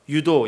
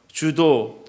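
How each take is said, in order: First: The word begins with a Y sound. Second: The word begins with a J sound.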